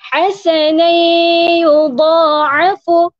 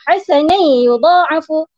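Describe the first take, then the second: First: The nasal hum is held for two beats. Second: The nasal hum is cut short. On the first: The speaker calls it right. "sama juga sebutannya" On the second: The speaker calls it wrong. "tak boleh kita sebut ... Perlu di uh, panjangkan sedikit masanya"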